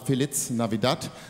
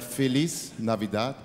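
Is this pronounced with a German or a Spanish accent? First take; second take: German; Spanish. First: It is pronounced with a German accent. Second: It is pronounced with a Spanish accent. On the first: The speaker calls it wrong. "nicht die deutsche Aussprache" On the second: The speaker calls it right.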